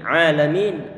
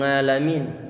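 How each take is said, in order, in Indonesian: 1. Kata ini dimulai dengan vokal biasa. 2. Kata ini dimulai dengan bunyi ng. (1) "Ini alamin" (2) "khususnya mungkin sebagian di antara logat"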